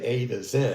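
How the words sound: The letter Z is said the British way. "you say A to Z"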